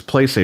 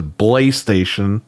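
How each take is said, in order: First: Said in the usual way. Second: "Belay Station" with an added syllable, buh-LAY; mock someone saying PlayStation as "Belay Station"; mimicked mispronunciation. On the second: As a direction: turn the opening into a separate buh in "Belay Station". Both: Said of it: "That's how Dreamcast guy says PlayStation".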